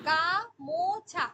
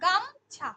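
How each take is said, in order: First: The word is said as three separate syllables. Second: The word is said as two syllables. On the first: "তিনটে আলাদা উচ্চারণ হলো" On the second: "এখানে আমরা যখন উচ্চারণ করব গামছা"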